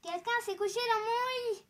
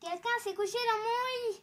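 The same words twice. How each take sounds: First: It is said in a medium voice. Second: The same.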